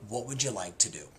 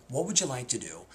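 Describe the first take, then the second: No difference in how they are said.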